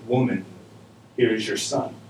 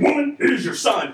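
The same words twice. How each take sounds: First: It is said gently and lovingly. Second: It is said rudely and sternly.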